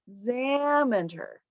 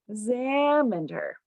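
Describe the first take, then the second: The two takes are said the same way.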